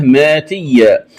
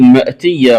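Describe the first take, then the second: First: ماتية with long maa, no glottal stop; hamza as alif. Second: Said in the usual way. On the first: Shown as a demonstration. Teacher showing the variant, ماتية without hamza. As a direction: glide "maatiyya" for ماتية. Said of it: "ألفا مادية". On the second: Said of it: "قرأها بإبدال الهمزة".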